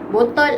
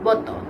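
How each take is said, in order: First: It is said with standard Malay pronunciation. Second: It is said with Terengganu dialect pronunciation. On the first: "bahasa baku" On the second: "akan berbeza bunyinya"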